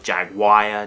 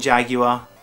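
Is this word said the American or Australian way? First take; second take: American; Australian. First: It is said with an American pronunciation. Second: It is said with an Australian pronunciation. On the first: "In the U S, it sounds like you've got Jaguar" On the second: "We call it Jaguar, and everyone in Australia calls it Jaguar"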